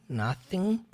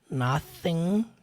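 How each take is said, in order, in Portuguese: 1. O primeiro som é um TH suave e sutil. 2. O primeiro som é um TH suave e sutil.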